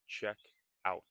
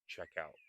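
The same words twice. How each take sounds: First: The two words are said separately and carefully. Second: The two words run together quickly. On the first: "check out is not check out" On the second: "when we are speaking quickly, we can say check out"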